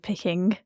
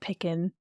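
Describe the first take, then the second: First: The ending is a full 'ing' with the g. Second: The ending is clipped to 'in' without the g. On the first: The speaker calls it right. "instead of picking" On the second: The speaker calls it wrong. "I just said picking"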